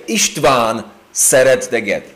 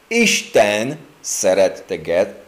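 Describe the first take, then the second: First: "István szeret téged" with István stressed; the wrong version, leaning on István; mistaken Hungarian. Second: Slow "Isten szeret téged", stress on Isten; the right version, said slowly; correct Hungarian. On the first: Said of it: "they started to say". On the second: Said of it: "instead of". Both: Retold or imitated.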